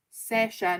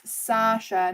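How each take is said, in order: First: Sasha with a short front vowel, SESH-a; alternative pronunciation. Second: Sasha drawn out with a long "ah", SAH-sha; name pronunciation. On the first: Trying the other version of the name, Sasha said SESH-a. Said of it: "I don't even know". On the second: Working out a viewer's name, Sasha said SAH-sha. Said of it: "not Sosh". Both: Shown as a demonstration.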